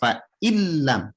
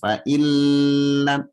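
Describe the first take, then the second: First: The sound moves straight into the L. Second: The sound before the L is held long. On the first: The speaker calls it right. "tekan langsung pindah ke lam" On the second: The speaker calls it wrong. "Ibu jangan tahan, fa'ilam jangan"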